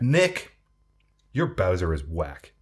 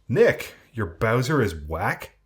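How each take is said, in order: First: The voice falls at the end, like a statement. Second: The voice rises at the end, like a question.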